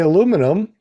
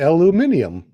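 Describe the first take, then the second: First: It is said the American way. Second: It is said the European way. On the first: "we say aluminum" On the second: "Europe they say aluminium"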